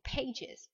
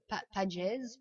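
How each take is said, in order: First: "pages" as pay-djiz; two-syllable English plural. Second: "pages" as pa-djez, with an open a; wrong pronunciation. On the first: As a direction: say "pages" with an ay and a final iz. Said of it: "vous ferez is". (« pages » prononcé péï-djiz) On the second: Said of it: "et pas". (« pages » mal prononcé, pa-djèz) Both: Shown as a demonstration.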